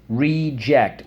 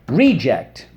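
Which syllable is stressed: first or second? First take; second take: second; first. First: The stress is on the second syllable. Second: The stress is on the first syllable.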